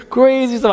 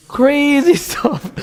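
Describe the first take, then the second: First: Said in the usual way. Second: Laughing. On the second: Real, not acted. Laughs at the idea.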